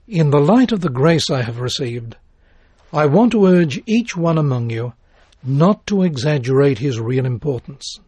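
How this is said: It is read with pauses between phrases.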